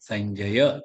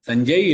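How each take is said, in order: First: The word ends on a vowel. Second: The word ends on a consonant. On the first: The speaker calls it right. "இல்ல சஞ்சய" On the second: The speaker calls it wrong. "சஞ்சய் இல்ல"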